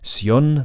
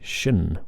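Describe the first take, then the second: First: The ending is said with a clear s sound. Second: The ending is said with a soft sh sound. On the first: The speaker calls it wrong. "not sion like you would in Spanish" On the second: The speaker calls it right. "but shun with that much less precise consonant"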